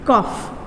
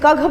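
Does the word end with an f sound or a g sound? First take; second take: f sound; g sound. First: The word ends with an f sound. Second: The word ends with a g sound. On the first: The speaker calls it right. "C O यू जी H कफ" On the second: The speaker calls it wrong. "कघ बोलेंगे? No"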